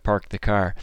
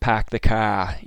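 First: It is said in a general accent. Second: It is said in a Boston accent.

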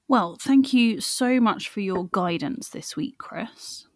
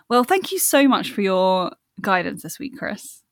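First: The thanks is said in a sarcastic tone. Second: The thanks is said in a sincere tone. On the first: The speaker seems not to mean the thanks. The speaker calls it wrong. "It sounds sarcastic when you say it like that" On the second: The speaker genuinely means the thanks. The speaker calls it right. "That would sound a bit more natural"

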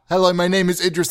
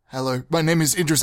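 First: It is spoken at a raised, medium volume. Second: It is spoken at a soft, modest volume.

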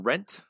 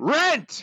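First: It is said calmly at normal volume. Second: It is yelled loudly and angrily.

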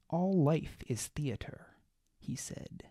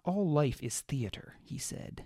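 First: There is a long pause within the phrase. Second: There is no long pause within the phrase. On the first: The speaker calls it wrong. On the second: The speaker calls it right.

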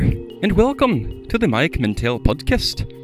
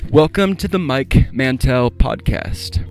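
First: It is spoken in a put-on Irish accent. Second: It is spoken in the speaker's normal accent. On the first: "I'm just working on me Irish accent" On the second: "like that Irish dude just said"

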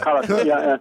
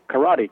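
First: It is said with Japanese pronunciation. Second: It is said with English pronunciation. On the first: This is the original native form. "you say it properly, karate" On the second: This is the form listeners will understand. "then I have to say karate because people want to know what you're talking about"

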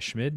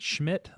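First: The name ends without a t sound. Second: The name ends with a t sound. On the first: The speaker calls it right. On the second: The speaker calls it wrong.

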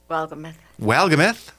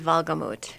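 First: The surname is said with an American pronunciation. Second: The surname is said with a German pronunciation. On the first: This is how the family says the name. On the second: This is how the name is said in Germany.

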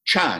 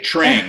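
First: The name begins with a ch sound. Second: The name begins with a tr sound. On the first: The speaker calls it right. "But it's Trang" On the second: The speaker calls it wrong. "because I'm an American, I saw your name, and all of a sudden I wanted to say Trang"

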